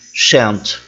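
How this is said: It is said with an American accent. "como pronunciariam os americanos"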